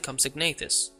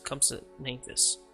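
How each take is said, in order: First: The G in the name is sounded. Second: The G in the name is silent. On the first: "I put the G in there" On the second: "Right here it says"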